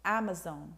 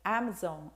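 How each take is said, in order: First: The vowels sound like American English. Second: The vowels sound like American English.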